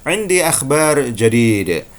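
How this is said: It is said in a Saudi Arabic accent.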